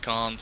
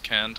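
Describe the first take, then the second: First: It is said in a British accent. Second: It is said in an American accent. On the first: "British is can't" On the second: "American is can't"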